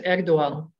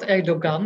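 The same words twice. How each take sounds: First: No g sound is heard mid-word. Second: A hard g sound is heard mid-word. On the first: The speaker calls it right. "the G isn't pronounced" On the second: The speaker calls it wrong. "It's not Erdogan"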